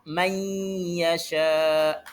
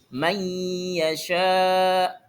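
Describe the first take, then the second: Both takes have the same delivery.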